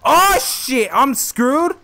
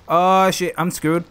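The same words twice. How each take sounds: First: High loud panicked cry. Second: Said in the usual way. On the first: Real, not acted. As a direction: cry out in alarm. Chased, panic.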